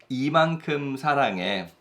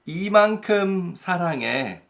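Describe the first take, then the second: First: Said in the usual way. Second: Higher and sweet, a loving partner; sweet lover's answer. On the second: Acted. Partner telling a loved one how much, sweetly. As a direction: say it fondly, as if to a sweetheart. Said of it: "Then that phrase is".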